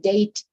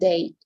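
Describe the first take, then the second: First: The final d is released clearly and strongly. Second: The final d is very soft, almost silent. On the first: The speaker calls it wrong. "I'm not going to say date" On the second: The speaker calls it right. "in a softly way, very very soft"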